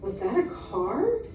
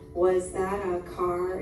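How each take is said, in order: First: It is read in a lively, expressive voice. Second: It is read in a flat, unexpressive voice. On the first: The story sounds interesting and is easier to follow. The speaker calls it right. "when I use expression" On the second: The story sounds dull and is harder to follow. The speaker calls it wrong. "reading that way doesn't help me understand the story"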